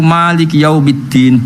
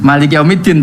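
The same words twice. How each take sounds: First: The first vowel of Malik is long. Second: The first vowel of Malik is short. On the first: This reading has the added alif. "bil mat" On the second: This reading has no alif. "tanpa alif"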